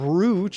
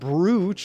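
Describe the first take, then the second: First: The word is pronounced the way it is spelled. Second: The word is pronounced the way it is spelled.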